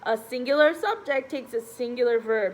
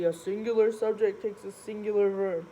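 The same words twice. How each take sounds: First: It is said in an ordinary speaking voice. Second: It is said in a low, deep voice.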